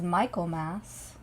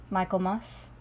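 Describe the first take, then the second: First: Michaelmas ending in a full "mass"; Michaelmas, last vowel as in "cat"; full final syllable. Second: Michaelmas ending in a weak "muss"; Michaelmas, last vowel as in "bus"; reduced final syllable. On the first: Says the name two ways. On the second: Repeats it with another vowel. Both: Shown as a demonstration.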